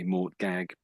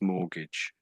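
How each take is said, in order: First: The word is said as 'mort-gag', spelled-out style. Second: The word is said as 'mor-gij', the t silent. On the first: The speaker calls it wrong. "it looks like ... but that's not really how it's said" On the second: The speaker calls it right. "That's mortgage"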